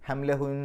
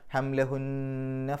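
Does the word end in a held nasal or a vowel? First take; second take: nasal; vowel. First: The word ends on a held doubled n. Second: The word ends on a short vowel after n. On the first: The reading stops after this word. "നിർത്തുകയാണെങ്കിൽ ഹംലഹുൻ" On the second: The reading continues into the next word. "നിർത്താതെ പോവുകയാണെങ്കിൽ ആ ഷദ്ദുള്ള നൂനിനെ മണിച്ചിട്ട് പറയാം"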